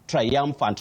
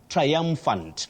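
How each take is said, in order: First: The first syllable glides across three vowel sounds. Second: The first syllable glides across three vowel sounds.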